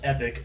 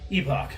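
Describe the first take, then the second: First: It is said with an American pronunciation. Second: It is said with a British pronunciation. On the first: "it'd be called Epic if you're in the United States" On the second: "since these guys are from U K, they would pronounce it Epoch"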